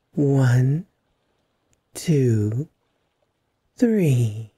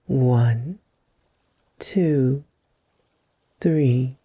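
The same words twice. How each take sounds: The two takes are said the same way.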